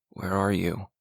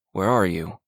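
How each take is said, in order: First: Soft, quiet mumble under the breath; mumbled. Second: Said in the usual way. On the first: A narrator's reading. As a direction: mumble it to yourself, barely audible. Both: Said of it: "he mumbled".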